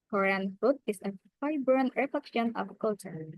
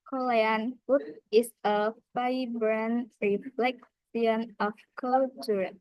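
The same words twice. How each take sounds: First: British accent, unstressed syllables are reduced. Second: Korean accent, every syllable stressed equally. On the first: "In British accent, reduce emphasis on under-stressed syllables" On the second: "In Korean accent, equal stress on every syllable"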